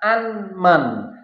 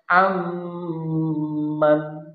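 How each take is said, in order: First: The n is clearly pronounced before the m. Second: The n merges fully into the m sound. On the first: The speaker calls it wrong. "Tidak dibaca anman" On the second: The speaker calls it right. "tetapi dibaca amman"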